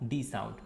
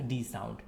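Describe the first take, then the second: No difference in how they are said.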